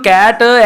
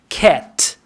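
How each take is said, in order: First: An extra vowel sound follows the final t. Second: The word ends cleanly on the t sound. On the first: The speaker calls it wrong. "This is that Punjabi style way you are doing" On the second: The speaker calls it right. "k, and t"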